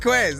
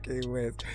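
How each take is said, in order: First: The name is said as one single syllable. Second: The name is said as two separate syllables. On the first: The speaker calls it right. "So it is Quest. I've been saying it right" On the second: The speaker calls it wrong. "not K West"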